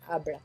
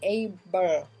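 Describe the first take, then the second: First: It is said with a French pronunciation. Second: It is said with an English pronunciation. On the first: "Donc nous ça fait able" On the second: "Et eux c'est able"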